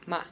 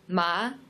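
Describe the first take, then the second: First: The syllable is short, light and unstressed. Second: The pitch rises like a question. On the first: "a neutral tone, which is just very light" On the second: "the second tone it's a rising tone"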